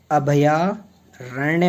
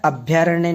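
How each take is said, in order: First: अभयारण्य slowly as "abhaya-aranya"; अभयारण्य drawn out, every syllable clear; correct full form. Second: अभयारण्य squeezed to "abhyaranya"; अभयारण्य with भ and य run together; wrong short form. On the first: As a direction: sound the A after भ in अभयारण्य. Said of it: "अभयारण्य होता है". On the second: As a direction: drop the A after भ in अभयारण्य. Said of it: "नहीं होता है". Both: Shown as a demonstration.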